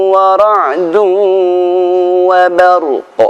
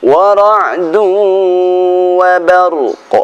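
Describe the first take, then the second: The two takes are said the same way.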